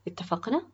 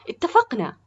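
First: "اتفقنا؟" as a rising question; asking agreement. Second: "اتفقنا" high and loud, falling at the end; enthusiastic. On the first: Acted. Official offers the boy a deal, "اتفقنا؟" rising, questioning. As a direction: lift the end of "اتفقنا؟" to check agreement. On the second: A narrator's reading. Boy accepts the cooking job, "اتفقنا" said enthusiastically. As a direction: seal it eagerly with a loud "اتفقنا". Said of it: "أجاب براء بحماس".

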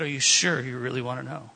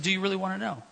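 First: Teasing bait. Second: Said in the usual way. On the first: Retold or imitated. Preacher baiting the curious waiter, teasing and lower. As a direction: dangle the question to tease him. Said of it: "kind of baiting him a little bit, having fun". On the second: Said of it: "kind of baiting him".

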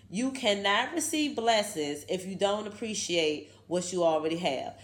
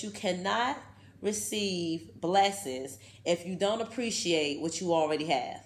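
First: Said in the usual way. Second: Slow, deliberate reading with pauses; slow first reading. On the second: Shown as a demonstration. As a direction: read it slowly, weighing each word. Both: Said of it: "Let me read that one more time".

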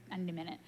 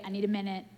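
First: Much softer, low "I need a minute"; worn-out murmur; fading plea. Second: Said in the usual way. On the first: Retold or imitated. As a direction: trail off, drained. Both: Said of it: "Sometimes you're like".

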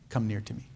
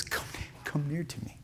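First: A much softer, tender call; gentle soft invitation. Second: Whispered, soft invitation; tender whisper. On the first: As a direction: hush it down, lovingly inviting. Joseph invites brothers near. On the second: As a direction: breathe it out gently, like calling them close. Joseph calls brothers near. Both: Acted.

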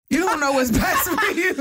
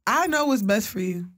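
First: High, laughing as she says it. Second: Said in the usual way. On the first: Retold or imitated. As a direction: laugh through the line. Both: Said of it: "I tell all my clients".

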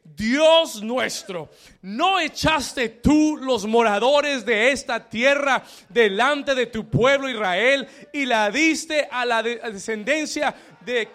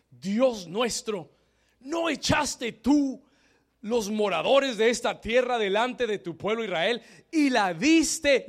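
First: Each word weighty and drawn out; slow, emphatic scripture reading. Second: Said in the usual way. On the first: Shown as a demonstration. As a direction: read the verse slowly and louder, leading the congregation. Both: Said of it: "Lea el versículo siete conmigo".

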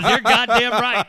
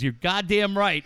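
First: Imitated booming, higher-pitched agreement; loud hearty agreement. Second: Retold hearty, emphatic agreement. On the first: Canadian coworker loving the joke, loud hearty agreement. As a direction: boom it out, imitating a delighted listener. Retelling escalates the delighted agreement. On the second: Canadian coworker agreeing with the joke, emphatic. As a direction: agree firmly, imitating a delighted buddy.

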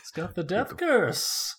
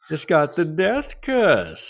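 First: Slow, high ominous warning; Crazy Ralph. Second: Slow, high, louder doom warning; Crazy Ralph. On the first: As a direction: croak out the curse. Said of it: "Crazy Ralph". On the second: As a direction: top it with a bigger croak. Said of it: "my Crazy Ralph impression". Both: Retold or imitated.

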